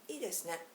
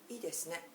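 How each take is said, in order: Both takes have the same delivery.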